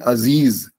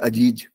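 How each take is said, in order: First: The middle consonant is a 'z' sound. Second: The middle consonant is a 'j' sound. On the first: This is the word as intended, written with the dot. The speaker calls it right. "अगर आप कहते हैं अजीज" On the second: This is how it reads when written without the dot. The speaker calls it wrong. "अगर नुक्ता नहीं लगाएंगे ... तो वो लिख पढ़ने में आएगा अजीज"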